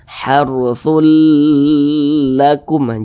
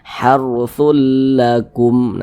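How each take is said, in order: First: The merged l sound is drawn out long. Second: The merged l sound is kept short. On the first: The speaker calls it wrong. "jangan dipanjangkan seperti itu" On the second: The speaker calls it right.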